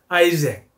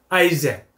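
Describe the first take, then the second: First: The name is said with an English pronunciation. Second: The name is said with an English pronunciation.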